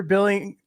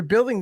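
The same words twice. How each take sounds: First: Billing said with no d, bill-ing; billing read out as bill-ing instead of building; misread word. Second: Said in the usual way. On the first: Shown as a demonstration. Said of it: "I think they meant that you're building this, not billing". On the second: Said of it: "I think they meant that you're building this".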